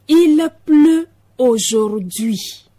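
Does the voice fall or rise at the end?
falls. The voice falls at the end.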